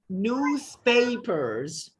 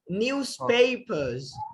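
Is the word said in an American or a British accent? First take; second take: American; British. First: It is said in an American accent, with R. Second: It is said in a British accent, without R. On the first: "if you have to pronounce this word in the American accent" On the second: "if you want to pronounce it thoroughly in the British accent, then you also have to silence the R"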